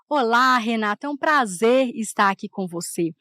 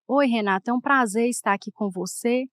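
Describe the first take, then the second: First: It sounds cheerful and joyful. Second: It sounds serious and sad, without joy.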